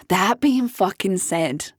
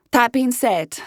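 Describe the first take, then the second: First: "that being fucking said" slowed right down for emphasis; emphatic repeat. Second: Said in the usual way. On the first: Real, not acted. Host turning her argument round, "that being fucking said" slow and emphatic. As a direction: lean slowly and deliberately on "that being fucking said". Repeats it with added swear word.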